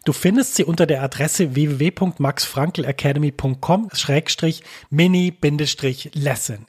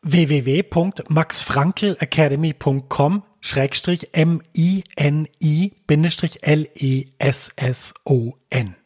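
First: Said in the usual way. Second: Slow, letter by letter; spelling it out. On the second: Shown as a demonstration. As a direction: spell each letter out clearly. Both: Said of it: "Ich buchstabiere das mal kurz".

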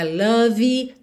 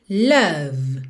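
First: "love" wrongly said as "LUH-vee"; mispronounced love. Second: "love" as one syllable, "luv"; correct love. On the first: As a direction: tack an extra ee onto "love". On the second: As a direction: end "love" cleanly on the V. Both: Shown as a demonstration. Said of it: "não é love".

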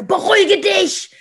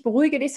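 First: High, loud, slow snap; tense command. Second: Said in the usual way. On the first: Shown as a demonstration. Parent orders the child to calm down, loud and tense. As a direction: bark it out tense. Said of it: "wenn ich sage". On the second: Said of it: "dann hört das Kind nicht".

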